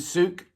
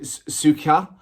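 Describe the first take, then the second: First: The name ends on a bare K, H silent. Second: The name ends with an audible H and vowel.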